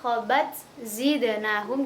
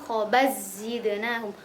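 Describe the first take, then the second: First: The t is pronounced clearly before the next word. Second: The t merges into the following consonant. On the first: "kalau dibaca idhar" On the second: "Kalau idgham"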